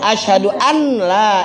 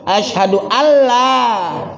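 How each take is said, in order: First: The n is pronounced separately before the l. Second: The n merges into a doubled l sound. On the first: The speaker calls it wrong. "tapi dia macamnya" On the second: The speaker calls it right. "jadi bunyi bunyi mana? Asyhadu Allah"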